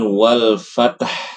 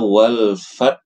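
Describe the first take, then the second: First: A vowel is added between t and h. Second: The final h is dropped entirely. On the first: "membacanya dengan wal fatah" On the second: "dibaca wal fat saja"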